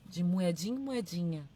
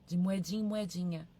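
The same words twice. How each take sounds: The two takes are said the same way.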